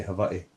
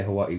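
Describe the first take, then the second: First: "Hawaii" with a V sound for the W; Polynesian pronunciation. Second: Said in the usual way. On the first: Shown as a demonstration. Correcting the American on Polynesian speech, "Hawaii" said with a V. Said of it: "Hawaii is two V's together". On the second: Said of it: "We don't say Hawaii".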